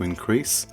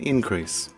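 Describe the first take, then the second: First: The stress is on the second syllable. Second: The stress is on the first syllable. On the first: It is used as a verb. "stress on the second syllable" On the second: It is used as a noun. "the noun has the stress on the first syllable"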